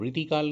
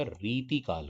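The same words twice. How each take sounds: First: रीतिकाल with a short i in री; higher रीतिकाल, clipped first vowel. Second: रीतिकाल with a long ee in री; long first vowel. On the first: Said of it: "तो रीतिकाल नहीं होता". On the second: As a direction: stretch री in रीतिकाल. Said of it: "रीतिकाल होता है". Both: Shown as a demonstration.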